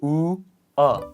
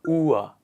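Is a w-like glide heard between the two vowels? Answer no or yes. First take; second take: no; yes. First: The two vowels are said separately, without a glide. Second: The two vowels are joined by a w glide.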